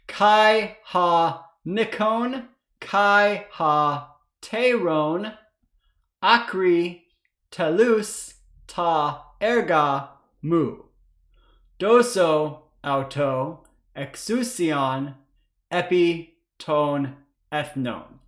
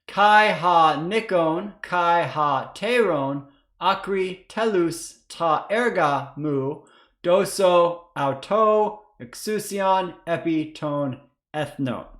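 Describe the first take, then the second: First: It is read slowly. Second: It is read faster.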